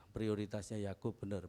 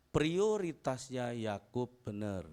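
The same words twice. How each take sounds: First: Said in the usual way. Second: Prioritasnya Yakub benar said slowly and louder, each word weighted; slow loud emphasis. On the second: Shown as a demonstration. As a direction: lean hard on prioritasnya, drawn out. (prioritasnya diucapkan pelan dan keras, ditekan)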